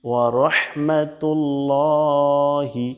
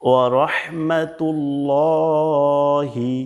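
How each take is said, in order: Both takes have the same delivery.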